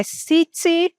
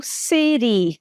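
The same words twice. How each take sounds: First: "city" with a fully pronounced T, "sitee"; clear T city. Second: "city" with a flapped T, "siri". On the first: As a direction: give "city" a crisp T. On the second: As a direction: tap the T in "city" like a quick R. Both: Shown as a demonstration. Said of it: "pode ser falada como city".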